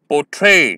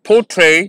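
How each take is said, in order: First: The stress is on the second syllable. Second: The stress is on the first syllable. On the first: The speaker calls it right. "सेकंड syllable पर ज्यादा emphasis दिया गया है" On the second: The speaker calls it wrong. "अगर मैं ऐसे कोशिश करता हूं ... अननेचुरल भी लगता है"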